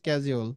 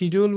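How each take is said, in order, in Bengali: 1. শব্দটি sk ধ্বনি দিয়ে শুরু হয়। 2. শব্দটি sh ধ্বনি দিয়ে শুরু হয়। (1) "এটার সঠিক উচ্চারণ হচ্ছে স্কেজুল" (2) "আমরা একটা শিডিউল বলি"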